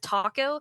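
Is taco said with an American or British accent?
American. The word is said in an American accent. The speaker calls it right. "instead of taco"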